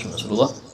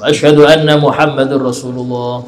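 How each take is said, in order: First: It is said quietly, in a low voice. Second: It is said loudly, in a full voice. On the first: "Pelan dulu"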